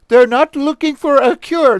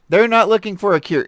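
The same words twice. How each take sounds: First: It is said in a put-on French accent. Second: It is said in the speaker's plain accent.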